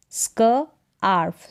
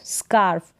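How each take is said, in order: First: Slow स्क आर्फ in two parts; sounded out. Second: Said in the usual way. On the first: Shown as a demonstration. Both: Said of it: "इसको pronounce करेंगे स्क".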